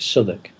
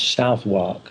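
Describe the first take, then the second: First: The name is said in a shortened local form. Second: The name is said just as it is spelled. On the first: This is how local people actually say it. "the Londoners pronounce it Southwark" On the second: This is how most people would guess it. "I suppose you would pronounce Southwark, most people would"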